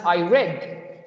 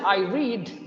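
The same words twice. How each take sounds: First: The verb rhymes with bed. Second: The verb rhymes with seed. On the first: The reading happened in the past. "so this is past" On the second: The reading happens now or habitually. "so this is present"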